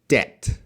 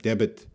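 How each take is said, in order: First: No B sound is heard in the word. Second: A B sound is pronounced in the middle. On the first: The speaker calls it right. "That B is silent" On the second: The speaker calls it wrong. "they're really pronouncing that B every time"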